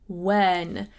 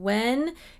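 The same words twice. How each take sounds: First: The vowel is open and placed further back. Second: The vowel is nasal and placed far forward. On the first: The speaker calls it right. "It's more open in the back" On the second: The speaker calls it wrong. "instead of saying when"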